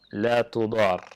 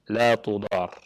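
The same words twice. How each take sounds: The two takes are said the same way.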